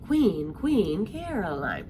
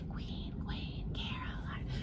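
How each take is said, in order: First: The phrase is said in a normal speaking voice. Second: The phrase is whispered softly. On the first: It is passed along in conversation. "talking to each other like this" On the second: It is shared quietly as a secret. "her sisters were whispering to each other"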